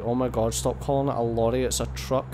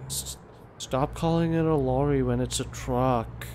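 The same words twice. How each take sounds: First: Whinging Scottish complainer, lightly put on; mildly mock an annoying Scottish whinger; retold moan in a Scottish accent. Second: Slow, drawn-out American impersonation; exaggerated American complainer; mock American accent. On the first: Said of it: "annoying Scottish person voice". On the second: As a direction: mimic a whinging American, dragging the words. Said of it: "it was probably an American".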